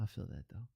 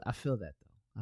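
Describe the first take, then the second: First: Lower, softer repeat of "I feel that though"; quiet echo. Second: Said in the usual way. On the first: Shown as a demonstration. Streamer repeating to himself, lower and softer.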